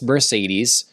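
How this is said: It is said with an American pronunciation. "America says Mercedes"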